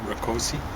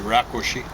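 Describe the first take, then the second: First: The stress is on a later syllable. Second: The stress is on the first syllable. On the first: This is how the name is commonly mispronounced. The speaker calls it wrong. "he probably mispronounced it" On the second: This is the name's own native pronunciation. The speaker calls it right. "it should be Rakosi. But accent on the first"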